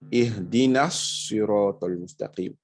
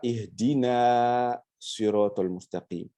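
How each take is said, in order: First: The short na links straight into sirat. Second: The final vowel of ihdina is held long. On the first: The speaker calls it right. "on fera la liaison entre le na et puis le sod" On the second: The speaker calls it wrong. "on ne dira pas"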